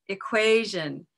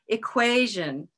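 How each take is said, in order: No difference in how they are said.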